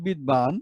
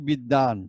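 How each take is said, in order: First: বিদ্বান as written, bid-baan; spelling pronunciation. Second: বিদ্বান as bid-daan; spoken pronunciation. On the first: Teacher contrasts writing with speech, বিদ্বান with audible b. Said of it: "লিখছি". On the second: Teacher shows the spoken form, বিদ্বান with silent b. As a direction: double the d in বিদ্বান, drop the b. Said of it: "কিন্তু বলছি কি". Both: Shown as a demonstration.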